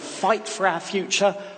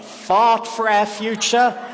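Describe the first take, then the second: First: It is said in a plain, non-Australian accent. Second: It is said in a broad Australian accent.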